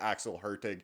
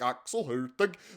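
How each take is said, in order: First: The name is said with English sounds. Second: The name is said with Swedish sounds. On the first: "the English way to say it, we just simplify to" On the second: "The more Swedish way is something more like"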